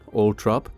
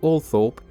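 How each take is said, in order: First: The name is said without a 'th' sound. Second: The name is said with a 'th' sound. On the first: This is how the family itself says it. "is the preferred one of the Spencer family" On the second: This is how most other people say it. "an alternative, more common pronunciation"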